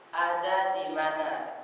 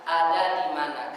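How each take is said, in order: First: The Arabic d in "Ada di mana?". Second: "Ada di mana?" with the Indonesian d. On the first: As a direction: say "Ada di mana?" slowly with the back d. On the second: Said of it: "Tapi kalau kita enggak". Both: Shown as a demonstration.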